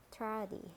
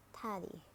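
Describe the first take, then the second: First: "tardy" with a sounded American R; American "tardy", curl the R before d; American accent. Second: "tardy" with a British silent R; British "tardy", said tah-dy; British accent. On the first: Teacher models tardy for learners, American accent. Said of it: "R in American English". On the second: Teacher models tardy for learners, British accent. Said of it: "in British English". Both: Shown as a demonstration.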